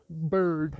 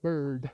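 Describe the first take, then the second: First: Bambi voice. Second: Said in the usual way. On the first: Pretend. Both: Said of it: "Just got Bambi back in my head".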